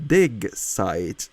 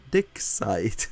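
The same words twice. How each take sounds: First: "dig" drawn out with a voiced g; clear G in dig. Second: "dick" ending in a hard, voiceless k; misheard K in dick. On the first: Streamer explaining a misheard word, "dig" with a clear g. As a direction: say "dig site" slowly, landing on the g of "dig". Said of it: "when I said dig site". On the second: Streamer showing how it was misheard, "dick" ending in k. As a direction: say "dick site" slowly, with "dick" cut off on a k. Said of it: "it sounded like I said". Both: Shown as a demonstration.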